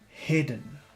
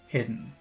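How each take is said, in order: First: The word is said with strong, exaggerated emphasis. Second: The word is said plainly, without extra emphasis.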